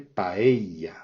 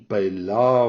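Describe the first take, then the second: First: It is said with a Spanish pronunciation. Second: It is said with a French pronunciation. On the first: The speaker calls it right. "la vraie manière de le dire c'est paella, avec le eia, qui est vraiment très fortement prononcé" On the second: The speaker calls it wrong. "la manière de le prononcer en français"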